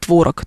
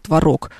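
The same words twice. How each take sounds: First: The stress is on the first syllable. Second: The stress is on the second syllable. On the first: The speaker calls it wrong. "не творог" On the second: The speaker calls it right. "единственную норму на букву О, вторую"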